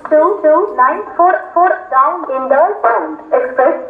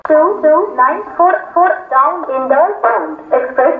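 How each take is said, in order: Both takes have the same delivery.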